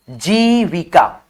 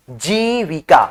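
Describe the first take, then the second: First: Syllable by syllable. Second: Said in the usual way. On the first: Shown as a demonstration. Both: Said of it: "यहाँ पे देखिए छोटी ई की मात्रा".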